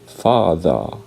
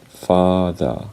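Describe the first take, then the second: First: It is said in a British accent. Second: It is said in a British accent.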